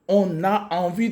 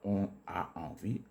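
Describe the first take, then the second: First: An n sound links 'on' to 'a'. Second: No n sound links 'on' to 'a'. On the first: The speaker calls it right. "La liaison est également obligatoire avec le on" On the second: The speaker calls it wrong. "Et non pas"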